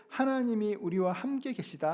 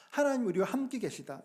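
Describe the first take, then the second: First: Said in the usual way. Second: 하나님 lifted higher and leaned on; stress on 하나님. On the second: Shown as a demonstration. Pastor repeats the verse to the congregation, stressing 하나님. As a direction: hit 하나님 to drive the name home.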